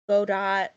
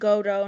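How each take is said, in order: First: The word ends with a T sound. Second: The word ends without a T sound. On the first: The speaker calls it wrong. "not Godot" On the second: The speaker calls it right. "his name's pronounced Godo"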